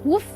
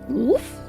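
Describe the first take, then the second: First: It is said flat, like a statement. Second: It rises at the end, like a question.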